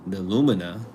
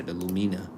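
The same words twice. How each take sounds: First: Lumina stressed on the first syllable: LOO-muh-nuh; corrected pronunciation. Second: Lumina stressed on a long "ee": loo-MEE-nuh; mistaken pronunciation. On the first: Reader fixing the foundation's name, corrected LOO-muh-nuh for Lumina. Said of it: "So that's why we do that". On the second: Reader showing his own slip on the foundation's name, loo-MEE-nuh for Lumina. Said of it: "I'm gonna say the Lumina". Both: Shown as a demonstration.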